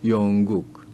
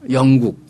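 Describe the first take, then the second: First: The first vowel is slightly lengthened. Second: The first vowel is short. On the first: This is the North Korean way of saying it. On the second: This is the South Korean way of saying it.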